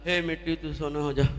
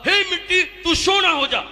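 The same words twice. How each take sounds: First: It is said without enthusiasm. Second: It is said with great enthusiasm.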